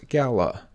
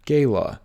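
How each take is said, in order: First: Gala said GAL-a; common mispronunciation. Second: Gala said GAY-la; correct pronunciation. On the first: Teacher showing viewers the wrong way. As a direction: say gala with a short a. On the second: Teacher showing viewers the right way. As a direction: say gala with a long a. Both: Shown as a demonstration. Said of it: "often mispronounced as gala".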